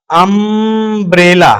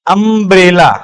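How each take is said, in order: First: "अम्ब्रेला" slowly, with a long held "अम्म"; drawn-out first syllable. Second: Said in the usual way. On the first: Shown as a demonstration. Teacher showing the vowel that starts "अम्ब्रेला", first syllable drawn out. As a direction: stretch the opening of "अम्ब्रेला" before finishing it.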